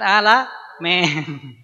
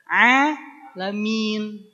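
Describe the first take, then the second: First: The i vowel is reduced and not fully formed. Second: The i vowel is full and clear. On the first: The speaker calls it wrong. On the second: The speaker calls it right.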